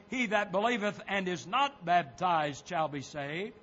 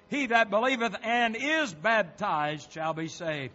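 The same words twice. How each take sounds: First: "not" punched as an intruding word; verse left hanging, weight on "not"; stress on NOT. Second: "and is" punched firmly in the verse; emphatic verse with weight on "and is"; stress on AND IS. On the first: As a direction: lean hard on NOT, questioning the altered verse. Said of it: "dare add the word "not". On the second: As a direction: hit AND IS as the words that count. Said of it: "but he did say". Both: Real, not acted.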